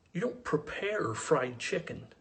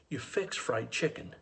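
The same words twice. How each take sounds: First: "prepare" drawn out slowly and pitched up in disbelief; slow, higher, picking out "prepare" as the wrong word; stress on prepare. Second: "fix" said slowly and firmly, tune falling to the end; slow, settled correction landing on "fix"; stress on fix. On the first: Rejects the city word prepare. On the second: Corrects it with country word. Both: Acted.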